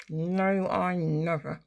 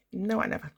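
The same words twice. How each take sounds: First: "No, I never" drawn out word by word; slow, deliberate stress on "No, I never"; emphatic denial. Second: Said in the usual way. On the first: Real, not acted. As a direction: stretch each word of "No, I never". Repeats denial slowly and emphatically.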